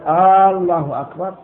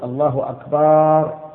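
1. يُمدّ حرف المدّ الأول في الكلمة الأولى. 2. يُمدّ حرف المدّ الذي يأتي بعد الصوت b. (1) "أن لا يمد الهمزة لا في الجزء الأول منها" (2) "أن لا يمد الباء"

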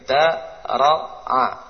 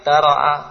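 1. Setiap suku dibaca pelan-pelan dan terpisah. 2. Suku-sukunya dibaca cepat sebagai satu kata. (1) "Kalau anak-anak biasanya berpikir da-ro-a" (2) "Kalau kita mungkin da-ro-a, selesai"

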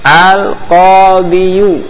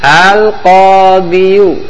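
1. Kata ini berakhir dengan bunyi vokal 'yu'. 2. Kata ini berakhir dengan bunyi vokal 'yu'.

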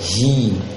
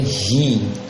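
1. Bunyi vokalnya seperti i. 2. Bunyi vokalnya seperti i.

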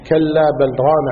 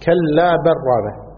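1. تُنطق 'l' بوضوح قبل 'r'. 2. تندمج 'l' في 'r' التي تليها. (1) "مع الإظهار" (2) "بالإدغام، يعني اللام تؤكل"

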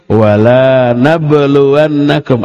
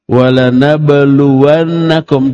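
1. Vokal setelah huruf l pertama panjang. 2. Vokal setelah huruf l pertama pendek. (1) "Kalau dibaca panjang, sebaliknya" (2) "Ada huruf lam. Dibaca pendek"

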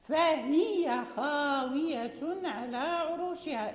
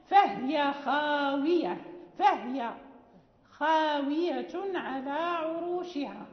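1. الهاء في الكلمة الأولى متحركة. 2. الهاء في الكلمة الأولى ساكنة.

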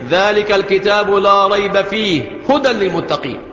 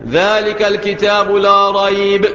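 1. يتوقف القارئ مباشرة بعد كلمة fihi. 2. يتوقف القارئ مباشرة بعد كلمة rayb. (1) "ممكن تقف على الثانية" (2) "ممكن تقف على الكلمة الأولى"

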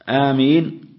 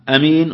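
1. الحركة الأولى طويلة. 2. الحركة الأولى قصيرة. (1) "ومدها" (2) "قصرها"

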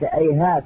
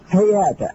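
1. تبدأ الكلمة بهمزة. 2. تبدأ الكلمة بصوت هاء. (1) "تحويل الهاء إلى همزة فيها الإشكال" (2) "فالمعروف في الفعل هذا أو اسم الفعل هذا أنه إيش؟"

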